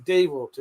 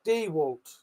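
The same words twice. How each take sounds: First: "DeWalt" as "dee-walt" with a clear "dee"; "dee" first syllable. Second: "DeWalt" as "dee-wolt" with a short O; "DeWalt" with the Walt like "wolt". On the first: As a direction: spell out the "dee" sound in "DeWalt". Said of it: "It's D E E". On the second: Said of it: "The A in Walt is pronounced like a short O sound". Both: Shown as a demonstration.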